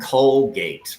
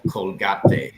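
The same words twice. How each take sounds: First: The final e is silent. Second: The final e is pronounced as a syllable. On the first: The speaker calls it right. "It's actually called Colgate, ... you don't pronounce the silent e" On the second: The speaker calls it wrong. "it's not called Colgate in English"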